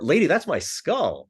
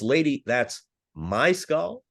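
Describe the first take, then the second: First: The word "skull" carries the main stress. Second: The word "my" carries the main stress. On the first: It is the skull, not some other bone. "like it's not my tibia" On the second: The skull belongs to the speaker, not the listener. "like it's not yours"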